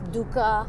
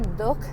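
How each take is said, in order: First: The word ends with an added final vowel. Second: The word ends on the final consonant. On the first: This is the form used for non-Hindi speakers. "it's dukkha, you know, uh, for, for all the Americans" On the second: This is how Hindi speakers say it. "we say dukh"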